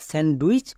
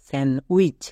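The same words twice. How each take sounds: First: The d sound is clearly pronounced. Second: The d sound is left out. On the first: The speaker calls it wrong. "অনেকে একে স্যান্ডউইচ বলে এসেছো, but আজকের পর থেকে আর বলবা না।" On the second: The speaker calls it right. "ডি এর উচ্চারণ হবে না।"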